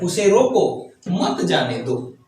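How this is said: There is a pause after रोको.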